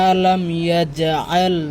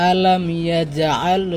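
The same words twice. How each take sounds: No difference in how they are said.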